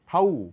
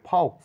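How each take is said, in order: First: The final x is not pronounced at all. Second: The final x is pronounced as ks. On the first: The speaker calls it right. "এক্স এখানে silent" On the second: The speaker calls it wrong. "ফাউক্স না বলে"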